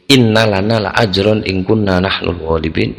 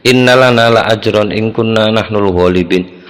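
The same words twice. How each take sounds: First: "Innalana la ajron in kunna nahnul ghalibin" asked with a rise at the end; question tune. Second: "Innalana la ajron in kunna nahnul ghalibin" recited as a flat statement, ending level; stated without question tune. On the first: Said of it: "Pasti ada intonasinya orang tanya". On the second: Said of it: "tanpa intonasi itu sulit dipahami". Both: Shown as a demonstration.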